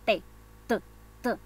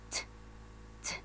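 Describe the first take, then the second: First: T said as a voiced Spanish syllable. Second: T as a voiceless puff of air; English t. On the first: Teacher showing how T sounds in Spanish, Spanish T. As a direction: say T the Castilian way, no puff. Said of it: "nosotros a la letra T le decimos así". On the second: Teacher contrasting English with Spanish, aspirated English t. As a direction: blow the t out through the teeth. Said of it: "It's like blowing with your teeth". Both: Shown as a demonstration.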